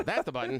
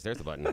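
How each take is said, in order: First: That's pitched high and punched louder; stress on That's. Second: Said in the usual way. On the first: Real, not acted. Spotting the button, stresses That's high and loud. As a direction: hit That's as the found button. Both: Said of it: "there it is".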